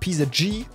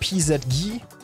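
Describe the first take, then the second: First: The letters are read out in English. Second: The letters are read out in German.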